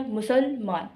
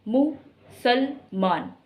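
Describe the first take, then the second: First: मुसलमान as मुसल, then मान; syllable stress. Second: मुसलमान very slowly in three beats, मु, सल, मान; separate stress on each syllable. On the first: Teacher repeats her stress example, मुसलमान split before मान. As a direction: stress मान in मुसलमान after a slight break. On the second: Teacher breaks down the stress, slow मु - सल - मान. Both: Shown as a demonstration. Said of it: "अलग मैं बलाघात दे रही हूँ".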